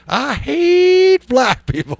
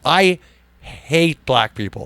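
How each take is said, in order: First: Said in a put-on little old lady voice. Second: Said in the speaker's own normal voice.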